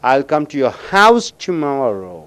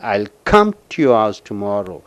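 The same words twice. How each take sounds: First: The word house is stressed. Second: The word come is stressed. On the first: The speaker will come to the house, not elsewhere. "அந்த ஹவுஸுக்கு அழுத்தம் கொடுக்கும் பொழுது" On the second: The speaker will come without fail. "கம்முக்கு அழுத்தம் கொடுக்கும் பொழுது"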